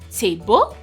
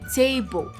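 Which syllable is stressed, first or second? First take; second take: second; first. First: The stress is on the second syllable. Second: The stress is on the first syllable. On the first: The speaker calls it wrong. "it's not table" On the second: The speaker calls it right. "the T there, the part of that word, has a little bit more emphasis than the bo"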